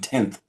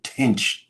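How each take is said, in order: First: The word ends in a 'th' sound. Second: The word ends in a 'ch' sound. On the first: The speaker calls it right. "That should have been tenth" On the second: The speaker calls it wrong. "You said tinch"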